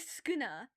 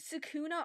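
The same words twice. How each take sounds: First: The first vowel is dropped: skuna. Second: The first vowel is fully pronounced: sukuna. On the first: The speaker calls it right. "You literally just ignore the first U and say Sukuna" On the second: The speaker calls it wrong. "are you kidding me? That gets on my nerves"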